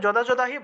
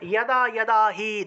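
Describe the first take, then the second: First: The words begin with a 'j' sound. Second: The words begin with a 'y' sound. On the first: The speaker calls it wrong. "তখন কিন্তু যদা যদাহি বললে হবে না" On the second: The speaker calls it right. "অর্থাৎ উচ্চারণটা হবে ইয়াদা ইয়াদা"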